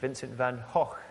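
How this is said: The name is said the Dutch way.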